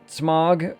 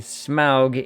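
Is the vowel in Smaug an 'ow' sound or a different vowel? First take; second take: different vowel; ow sound. First: The vowel is not an 'ow' sound. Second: The vowel is an 'ow' sound. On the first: This is how most people say the name. "Smaug was what everyone called him" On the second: This is how the author intended the name. "the proper pronunciation according to Tolkien"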